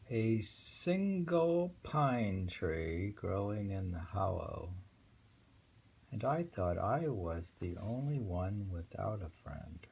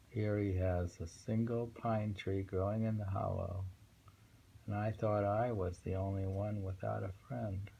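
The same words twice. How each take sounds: First: Poem reading. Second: Said in the usual way. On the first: Acted. Reads the poem aloud.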